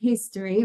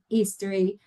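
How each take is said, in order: First: It is said with an English pronunciation. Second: It is said with a Spanish pronunciation. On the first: The speaker calls it right. "let's make very clear history" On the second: The speaker calls it wrong. "many people say history"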